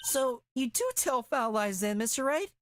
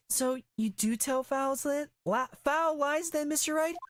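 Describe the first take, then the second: First: High, stumbling, oddly phrased accusation; a botched, strained high delivery; awkward high reading. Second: Stern accusing retake. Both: Acted. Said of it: "I said that weird".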